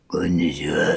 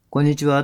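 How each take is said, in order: First: 「こんにちは」 said lower, dark and heavy; a gloomy, oppressive hello; dark oppressive greeting. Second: Said in the usual way. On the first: Shown as a demonstration. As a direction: greet like you're weighing on them. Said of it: "暗く人を圧迫するような声よりも". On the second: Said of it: "暗く人を圧迫するような声よりも、明るくて軽い声".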